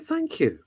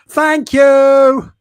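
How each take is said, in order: First: It is said at normal volume. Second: It is yelled loudly.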